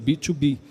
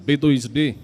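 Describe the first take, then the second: First: The term is read with English letter names. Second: The term is read with Portuguese letter names.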